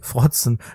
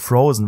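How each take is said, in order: First: The word is said with a German ts sound. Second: The word is said with an English z sound.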